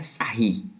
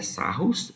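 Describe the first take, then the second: First: The name ends in a vowel, no final s. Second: The name is read as spelled, ending in s. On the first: This is how the French name is actually pronounced. "mas a pronúncia é Sarri" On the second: This is how the name is written. "a escrita é Sarros"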